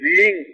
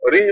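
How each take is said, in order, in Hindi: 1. स्वर लंबा है, जैसे double E। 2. स्वर छोटा है, जैसे I। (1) "H R डबल ई N G" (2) "रिंग नहीं है"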